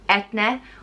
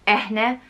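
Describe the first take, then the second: First: The middle consonant is a t sound. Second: The middle consonant is an h sound. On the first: "it can also be pronounced Et-ne" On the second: "or Eh-ne"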